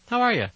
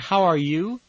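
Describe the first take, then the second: First: The word you is reduced to ya. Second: The word you is said in full.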